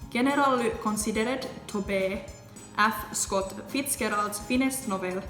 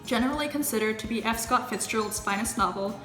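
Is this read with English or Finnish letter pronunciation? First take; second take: Finnish; English. First: Each letter is sounded out Finnish-style. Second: The words get normal English pronunciation. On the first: "read stuff to you in English, but with the Finnish pronunciation" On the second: "the way it would be pronounced in English"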